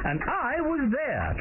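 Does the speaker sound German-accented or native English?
native English. It is spoken with a native English accent. The speaker calls it right.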